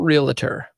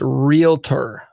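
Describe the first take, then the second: First: It has three syllables, with an extra uh. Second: It has two syllables, real then tor. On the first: The speaker calls it wrong. "It's not realtor" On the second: The speaker calls it right. "it's realtor"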